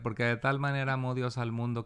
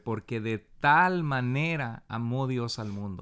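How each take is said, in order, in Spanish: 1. Las palabras se leen de forma uniforme, sin énfasis. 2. Las palabras clave se leen con mucho énfasis. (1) "No es lo mismo que leer" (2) "poner énfasis en palabras claves"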